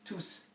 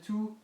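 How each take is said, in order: First: The word ends with an audible s sound. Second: The word ends without an s sound. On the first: The word is a pronoun standing alone. "Here you do pronounce tous" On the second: The word is an adjective before a noun. "Here you don't pronounce the two with an S"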